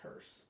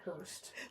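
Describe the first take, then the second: First: The word ends without a T sound. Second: The word ends with an added T sound. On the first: The speaker calls it right. "There's no T in hearse. It's just hearse" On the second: The speaker calls it wrong. "It's not Hearst"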